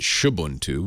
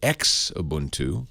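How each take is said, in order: First: The name begins with a 'sh' sound. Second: The name does not begin with 'sh'.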